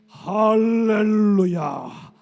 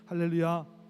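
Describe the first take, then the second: First: It is said in a forceful, powerful voice. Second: It is said in an ordinary, plain voice.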